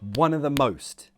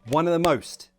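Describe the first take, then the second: First: The phrase is said at a slower pace. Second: The phrase is said at a faster pace. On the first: "See that rhythm?" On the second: "Speed up"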